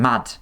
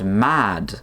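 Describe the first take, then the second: First: The vowel is short. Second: The vowel is long. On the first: "with a short A in both cases" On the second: "with a long A"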